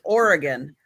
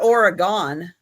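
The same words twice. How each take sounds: First: The last syllable sounds like 'gun'. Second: The last syllable sounds like 'gone'. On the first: The speaker calls it right. "It's Oregon" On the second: The speaker calls it wrong. "It didn't go anywhere. It's not Oregon"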